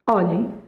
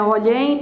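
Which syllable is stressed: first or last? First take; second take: first; last. First: The stress is on the first syllable. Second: The stress is on the last syllable. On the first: The speaker calls it right. "olhem é uma paroxítona" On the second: The speaker calls it wrong. "Não é olhem"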